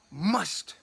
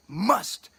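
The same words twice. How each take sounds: First: Said in the usual way. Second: Must said slowly and firmly; stress on must. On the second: Shown as a demonstration. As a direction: lean hard on the word must. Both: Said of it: "and I said must".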